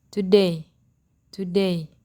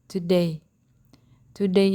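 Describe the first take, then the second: The two takes are said the same way.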